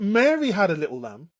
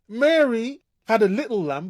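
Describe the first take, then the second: First: The stress is on the word Mary. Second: The stress is on the word little.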